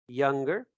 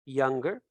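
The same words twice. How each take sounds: The two takes are said the same way.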